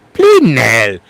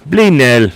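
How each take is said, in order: First: Imitated British exclamation; British accent. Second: Put-on posh British exclamation; posh British accent. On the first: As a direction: quote it in a put-on British accent. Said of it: "Or as Tanzan likes to say". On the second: Shown as a demonstration. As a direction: say it like a posh Brit.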